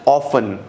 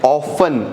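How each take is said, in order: Both takes have the same delivery.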